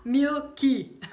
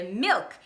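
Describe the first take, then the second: First: Loud, higher "Milk" as MIL-kee; amused demo of "Milk" with final ee; "Milk" broken into two syllables; Brazilian added vowel. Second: Said in the usual way. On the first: Shown as a demonstration. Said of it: "a gente vai falar milk". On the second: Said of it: "E não pode".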